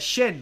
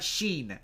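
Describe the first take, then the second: First: The vowel is short, as in shin. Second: The vowel is long, as in sheen. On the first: The speaker calls it right. "shin, like your shin" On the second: The speaker calls it wrong. "Not sheen"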